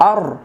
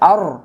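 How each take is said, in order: First: The r is heavy, with rounded lips. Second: The same.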